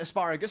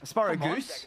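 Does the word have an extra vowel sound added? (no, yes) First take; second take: no; yes. First: It is said like the ordinary vegetable name. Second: It is said with an extra u sound added. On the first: "Do I pronounce it asparagus as the vegetable" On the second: "do I add the extra U in the pronunciation?"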